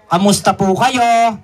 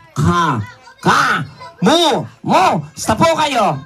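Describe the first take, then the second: First: Said in the usual way. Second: "Ka. Ka. Mu. Mu. Sta po kayo?" split into separate syllables. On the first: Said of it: "Sabihin mo sa kanila". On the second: Shown as a demonstration. Teaching the puppet to greet, syllable by syllable. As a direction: spell out "Kamusta" one beat at a time. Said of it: "gayahin mo ko".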